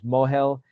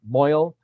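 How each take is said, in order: First: It is said as two syllables, mo-hel. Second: It is said as one syllable, moil. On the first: "the Hebrew is mohel"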